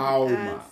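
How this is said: The word is said with a clear L.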